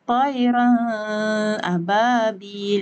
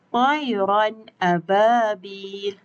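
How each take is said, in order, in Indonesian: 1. Bunyi n ditahan dengan dengung hidung. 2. Bunyi n diucapkan dengan jelas tanpa dengung hidung. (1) "tak boleh baca" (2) "Yang betulnya adalah Tayran ababil dengan tanpa dengung"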